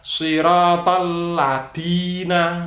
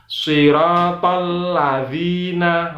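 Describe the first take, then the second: First: The middle consonant is a plain d sound. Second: The middle consonant is a soft dh sound. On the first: The speaker calls it wrong. "ladina salah. Ladina itu adalah dal" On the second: The speaker calls it right. "maka dibaca siratal ladzina"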